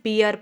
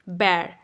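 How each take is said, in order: First: The vowel sounds like ee followed by uh. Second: The vowel sounds like the open e in air. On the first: The speaker calls it wrong. "बहुत से लोग English में बियर पढ़ते हैं" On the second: The speaker calls it right. "जो actual pronunciation है वो है बैर"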